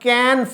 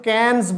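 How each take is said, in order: First: The name ends without any 's' sound. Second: The name ends with an 's' sound. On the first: The speaker calls it right. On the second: The speaker calls it wrong.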